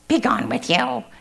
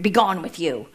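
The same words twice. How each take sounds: First: It is said in a cackly voice. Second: It is said in a plain, normal voice.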